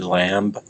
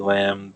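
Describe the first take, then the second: First: The word ends with a B sound. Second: The word ends without a B sound. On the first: "if we said it with the B" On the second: "we say lamb"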